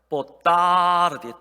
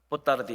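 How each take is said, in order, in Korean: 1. 'ta' 음절은 길게 늘여요. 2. 'ta' 음절은 짧아요. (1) "따가 길어야 돼요" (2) "이러면 안 돼요"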